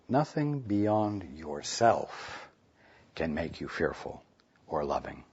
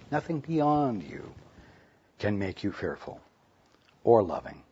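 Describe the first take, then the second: First: The stress falls on the word nothing. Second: The stress falls on the word beyond.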